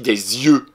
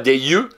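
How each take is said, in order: First: The two words are joined by a linking z. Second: The two words are said without a linking z. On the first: The speaker calls it right. "je fais la liaison avec le S" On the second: The speaker calls it wrong. "On ne dit pas"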